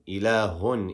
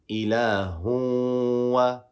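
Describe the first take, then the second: First: The final n sound is fully pronounced. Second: The final n sound is not pronounced. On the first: The speaker calls it wrong. "I'm not going to say ilahun" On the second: The speaker calls it right. "we are doing idgham"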